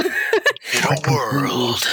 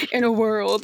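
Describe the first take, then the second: First: Whispered trailer voice. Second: Movie trailer voice. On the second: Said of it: "my narrator voice". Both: Shown as a demonstration.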